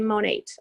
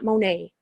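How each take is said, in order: First: The T sound is clearly pronounced. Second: The T sound is left silent. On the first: The speaker calls it right. "You say the T" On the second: The speaker calls it wrong. "It's not Monet"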